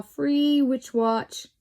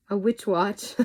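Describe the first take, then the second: First: Slow, drawn-out salesy read, lightly voiced; mock ad pitch. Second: Said in the usual way. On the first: Reading a witch catalogue to viewers, slow mock ad voice. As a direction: sell the free witch watch like a hammed-up advert.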